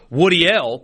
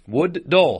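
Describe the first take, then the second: First: The name ends with a 'deal'-like sound. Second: The name ends with a 'dull'-like sound. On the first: The speaker calls it wrong. "that's what A I told me his last name was" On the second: The speaker calls it right. "says it's pronounced Wood-Dull"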